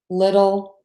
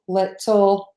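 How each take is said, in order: First: The middle consonant is a quick D-like flap. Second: The middle consonant is a full, crisp T. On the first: The speaker calls it right. "we would say the D, or the flap T" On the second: The speaker calls it wrong. "we don't say"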